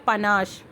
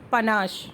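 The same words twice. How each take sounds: First: The word ends with an 'sh' sound. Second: The word ends with an 'sh' sound.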